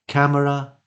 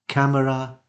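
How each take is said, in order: Both takes have the same delivery.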